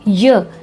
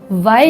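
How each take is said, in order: First: The letter is said as its bare sound. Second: The letter is said as its full name. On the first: The speaker calls it right. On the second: The speaker calls it wrong.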